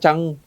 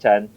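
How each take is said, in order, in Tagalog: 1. Ang salita ay nagtatapos sa tunog na 'ng'. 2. Ang salita ay nagtatapos sa simpleng tunog na 'n'. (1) "Pinoy pa rin, Yuna Chang. Kasi tamad siya mag-N eh" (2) "Chan or Cha"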